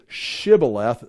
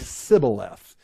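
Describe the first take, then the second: First: It begins with an sh sound, Gileadite style. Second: It begins with an s sound, Ephraimite style.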